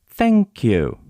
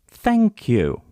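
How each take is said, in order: No difference in how they are said.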